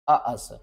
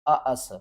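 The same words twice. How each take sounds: The two takes are said the same way.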